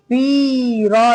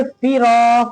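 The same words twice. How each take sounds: First: "फिरा" with "फि" dragged out; wrong long first vowel. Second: "फिरा" with brief "फि" and long "रा"; quick first syllable, held second in "फिरा"; short then long. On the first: Teacher showing what not to read, long "फि" in "फिरा". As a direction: stretch the first syllable of "फिरा" too long. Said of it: "फिरा नहीं पढ़ेंगे". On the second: Teacher giving the correct reading, short "फि" in "फिरा". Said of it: "फा को जल्दी". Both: Shown as a demonstration.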